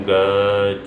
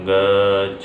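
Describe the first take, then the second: No difference in how they are said.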